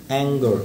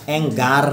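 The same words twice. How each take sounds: First: "অ্যাঙ্গার" ending in a weak schwa, like "ang-guh"; teacher's demo of "অ্যাঙ্গার" with a swallowed final a; barely sounded schwa. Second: "অ্যাঙ্গার" with an open "gaar" ending; wrong-way demo of "অ্যাঙ্গার", ending in a full "aar"; full final "ar". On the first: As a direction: stop the last vowel of "অ্যাঙ্গার" short. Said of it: "আটা উচ্চারণ না হবার মতো". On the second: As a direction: sound the a and r of "অ্যাঙ্গার" fully. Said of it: "না". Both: Shown as a demonstration.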